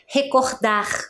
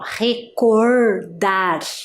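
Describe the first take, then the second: First: The R is said with a Rio de Janeiro accent. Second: The R is said with a southern Brazilian accent. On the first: "Ele vai falar recordar" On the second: "este som do R, ó, recordar, igual a gente faz aqui no sul"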